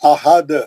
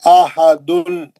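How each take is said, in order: First: The word stops on a bouncing, echoing 'd'. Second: The word ends with the full syllable 'dun'. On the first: "उसको साकिन करें" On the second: "ये दो पेश"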